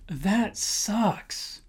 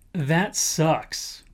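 First: Casual disgust. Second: Said in the usual way. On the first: Shown as a demonstration. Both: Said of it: "my personal favorite".

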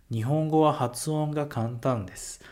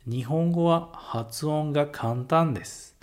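First: Said in the usual way. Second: "Nihongo wa hatsuon ga kantan desu" said slowly and carefully; first, slower reading of "Nihongo wa hatsuon ga kantan desu"; slow model phrase. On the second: Shown as a demonstration. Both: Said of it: "E um outro exemplo".

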